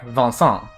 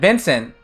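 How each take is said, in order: First: The vowels are nasal, in a French way. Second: The vowels are plain, without any nasal sound. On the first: "In French, it's like" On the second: "is how we say it in English"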